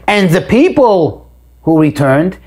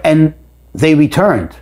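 First: "people" lifted and stressed, slow delivery. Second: "returned" leaned on, slow and falling; stress on returned. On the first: Teacher shows the verse really opens on the people, stressing people. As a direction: hit "people", let "returned" stay light, slowly. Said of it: "the emphasis here is not on the return". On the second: Teacher demonstrates the verse starting with the return, stressing returned. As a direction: weigh the phrase toward "returned", unhurried. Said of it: "putting the emphasis on the return". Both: Shown as a demonstration.

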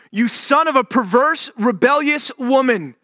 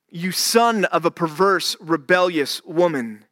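First: Enraged insult. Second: Said in the usual way. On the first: Acted. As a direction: spit the insult out at full force. Saul's enraged outburst, first take.

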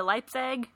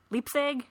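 First: First syllable of Leipzig rhymes with "type"; Leipzig said as LIPE-sig. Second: Unsure, higher Leipzig with an EE; Leipzig said as LEEP-sig. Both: Real, not acted. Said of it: "I don't know how to say it".

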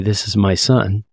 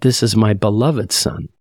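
First: Said in the usual way. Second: "beloved" lifted above the rest; stress on beloved. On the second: Retold or imitated. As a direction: lean on "beloved" as the key word. Adds beloved, against plain wording.

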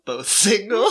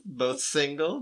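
First: SINGLE pushed up higher with a laugh; stress on SINGLE. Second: Said in the usual way. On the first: Retold or imitated. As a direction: punch "single" as a suggestive repeat. Pop's pitch, repeated with punch.

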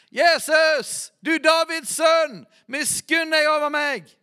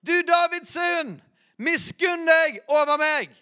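First: High, loud desperate cry for mercy; blind man shouting. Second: High, loud, slow cry, pushed harder still; even louder shout. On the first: Blind beggar crying out to Jesus, loud desperate shout. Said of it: "Og han ropte og sa". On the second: Blind man crying louder as crowd hushes him, straining shout. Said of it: "står det enda høyere". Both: Acted.

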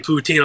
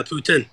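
First: Put-on "poutine" said "poo-TEEN"; long "ee" at the end of "poutine"; correct poutine. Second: "poutine" said like "Putin"; short, weak second syllable on "poutine"; deliberately wrong poutine. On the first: Customer showing the proper word, "poutine" as "poo-TEEN". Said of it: "instead of saying poutine". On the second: Customer spiting a rude server, "poutine" as "PUT-in". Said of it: "I'm just saying, say". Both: Shown as a demonstration.

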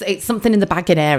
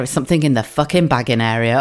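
First: Quick imitation of a checkout announcement; a hint of talking till; self-checkout voice. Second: Mock-irritated repeat, dropping lower; lower, sweary exasperation; exasperated. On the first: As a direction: lightly mimic the till's automated warning. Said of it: "And it goes bing". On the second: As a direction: repeat the warning, fed up with it. Fed up with the self-checkout warning.

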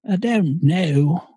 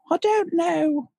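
First: Drawn-out goofy voice; slow, silly character voice. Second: Very high, slow squeaky voice. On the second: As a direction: squeak it out slowly. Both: Pretend. Silly voice in Muppet talk.

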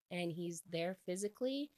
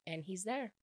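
First: Physically stressed and lifted at the end. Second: Said in the usual way. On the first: Shown as a demonstration. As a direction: lean into physically with a rise.

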